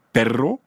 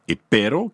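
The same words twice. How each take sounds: First: Perro avec un r longuement roulé; r roulé espagnol. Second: Pero avec un seul battement de r; r simple espagnol. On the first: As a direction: roulez bien le r de perro. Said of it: "perro, qui veut dire chien". (perro, r roulé fort à l'espagnole) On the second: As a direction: touchez le r de pero une fois. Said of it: "et pero, qui veut dire mais". (pero, r bref d'un seul coup de langue) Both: Shown as a demonstration.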